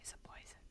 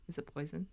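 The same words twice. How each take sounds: First: Barely audible whispered question. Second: Very soft, low-volume voice; hushed question. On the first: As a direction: whisper it with no voice at all. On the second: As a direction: ask it under your breath, still voiced. Wary question about a mushroom. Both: Real, not acted.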